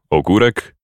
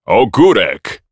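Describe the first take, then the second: First: Said in the usual way. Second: Shouted. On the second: Acted. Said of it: "wrzasnął Freud".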